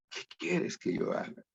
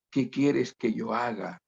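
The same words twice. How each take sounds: First: Soft whisper of the question. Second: Said in the usual way. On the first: Shown as a demonstration. Preacher whispering the question to each listener. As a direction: breathe the words like a confession.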